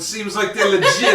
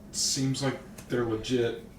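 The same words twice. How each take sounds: First: It is said in a put-on New York accent. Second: It is said in the speaker's plain accent.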